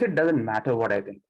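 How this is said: It is said in an aggressive, hostile tone. "It it becomes little aggressive"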